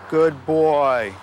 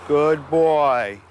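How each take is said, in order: The two takes are said the same way.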